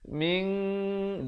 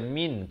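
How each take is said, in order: First: The n is hidden with a nasal hum. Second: The n is pronounced clearly and fully. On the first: The speaker calls it right. "bunyi ikhfa saja" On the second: The speaker calls it wrong. "Jangan baca min"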